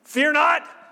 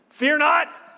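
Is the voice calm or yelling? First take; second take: yelling; yelling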